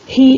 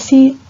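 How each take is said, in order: First: The first consonant is an aspirated h sound. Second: The first consonant is a hissed s sound. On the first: This is the jejeo pronunciation. "la aspiración de la S en posición inicial de sílaba" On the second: This is the standard pronunciation. "en lugar de"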